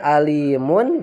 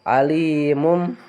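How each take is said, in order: First: The word ends with an n sound. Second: The word ends with an m sound. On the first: This is the underlying written form. "asalnya alimun" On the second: This is how it is read before the letter ba. "jadi alimum"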